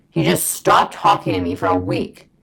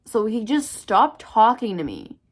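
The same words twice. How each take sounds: First: Loud, low, hard-hitting repeat; indignant emphasis. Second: Said in the usual way. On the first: Real, not acted. Storyteller stressing a week of being ignored, loud low indignation. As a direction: drop the pitch and push every word out.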